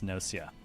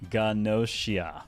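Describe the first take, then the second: First: It starts with an N sound, no G. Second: It starts with a G sound before the N. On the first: This follows English spelling habits. "Everything about English says to me it's Nocia" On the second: This follows the original Japanese writing. "the actual katakana is very clearly Ganoshia"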